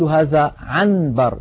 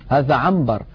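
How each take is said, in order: First: The sound before the b is a clear n. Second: The sound before the b is an m. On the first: The speaker calls it wrong. "لا ينطق النون صريحة هكذا" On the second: The speaker calls it right. "الإنسان بفطرته يا إخوة يقلب النون الساكنة إذا أتى بعدها باء إلى ميم"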